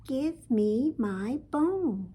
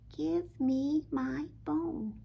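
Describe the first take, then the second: First: It is said a little louder. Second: It is said softly.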